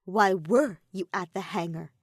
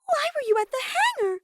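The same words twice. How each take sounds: First: Intimidating. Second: Put-on high girlish voice asking why; a curious high-pitched demand; Sumugi's high voice. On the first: Maki interrogates Himiko, louder and menacing. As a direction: press her hard, threatening. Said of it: "was about ten times more intimidating". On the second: Sumugi asks Himiko about the hangar, high and girlish. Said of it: "Sumugi asked her". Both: A narrator's reading.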